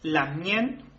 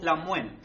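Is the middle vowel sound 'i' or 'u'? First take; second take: i; u. First: The middle vowel sounds like 'i'. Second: The middle vowel sounds like 'u'. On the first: This is the more common form. "la mayoría de las veces se escucha la mien" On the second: This is a less common form. "también lo pueden escuchar como la muen"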